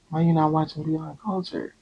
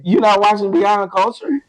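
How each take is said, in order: First: It is said in a sad tone. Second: It is said in a happy tone.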